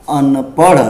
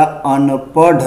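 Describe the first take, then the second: First: अनपढ़ ending on a flicked aspirated ṛh; correct flap. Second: अनपढ़ drawn out with a hard final ḍh; wrong stop sound. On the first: Teacher giving the pure form, अनपढ़ with flapped ṛh. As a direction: say अनपढ़ as anpaṛh, tongue flapping. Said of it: "शुद्ध क्या होगा". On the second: Teacher showing the careless reading, अनपढ़ with hard ḍh. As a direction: say अनपढ़ wrongly as anpaḍh, no flap. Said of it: "गलत पढ़ दिया जाएगा". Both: Shown as a demonstration.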